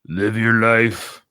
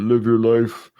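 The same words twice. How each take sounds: First: It is said in a plain reading voice. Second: It is said in a put-on Rambo voice.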